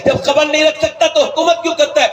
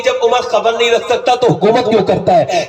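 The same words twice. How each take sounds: First: The repeat of جب خبر نہیں رکھ سکتا pitched higher, with رکھ leaned on; emphatic repeat. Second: Said in the usual way. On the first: Acted. Widow rebuking Umar, pressing the question harder. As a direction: hammer the rebuke home the second time.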